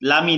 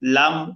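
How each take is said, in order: First: A short i vowel follows the M. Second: The word ends cleanly on a held M. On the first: The speaker calls it wrong. "অনেকে ভুল করে লামি বলে" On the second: The speaker calls it right. "একটু ধরে পড়তে হবে"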